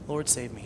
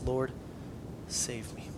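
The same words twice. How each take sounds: First: Said in the usual way. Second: Hushed, breathy-less whispered cry for help; whispered plea. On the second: Retold or imitated. Peter sinking, crying out to Jesus.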